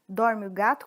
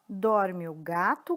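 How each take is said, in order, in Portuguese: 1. É dito em ritmo mais rápido. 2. É dito em ritmo lento.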